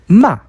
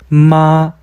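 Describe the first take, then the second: First: It is said with the fourth tone. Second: It is said with the first tone. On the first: It means to scold. "꾸짖다" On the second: It means mother. "어머니"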